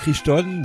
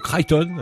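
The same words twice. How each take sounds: First: The name is pronounced the French way. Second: The name is pronounced the English way.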